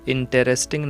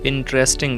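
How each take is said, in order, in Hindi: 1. 'inter' के बाद वाला स्वर उच्चारित होता है। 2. 'inter' के बाद वाला स्वर गिराया जाता है। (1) "इंटरेस्टिंग नहीं बोलेंगे, ये गलत होगा" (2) "ई लेटर साइलेंट रहेगा"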